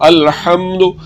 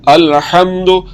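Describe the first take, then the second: Both takes have the same delivery.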